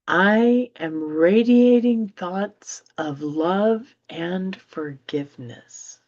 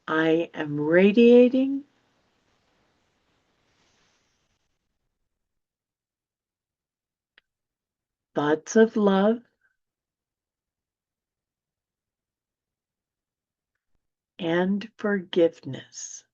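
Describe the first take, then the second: First: It is read at a normal pace. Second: It is read more slowly.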